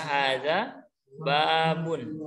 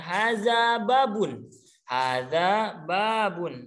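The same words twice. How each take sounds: First: Hadza babun drawn out, very slow; slow model phrase. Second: Haza babun said slowly, word by word; slow model phrase. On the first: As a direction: stretch "hadza babun" so they can follow. (ucapkan "hadza babun" sangat pelan) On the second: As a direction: draw out "haza babun" for the class to copy. (ucapkan "haza babun" pelan dan jelas) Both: Shown as a demonstration. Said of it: "siapa yang mau coba?".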